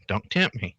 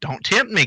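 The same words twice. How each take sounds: First: Said in the usual way. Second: "tempt" punched high and falling; stress on tempt. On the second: Shown as a demonstration. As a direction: hit "tempt" hard, then drop.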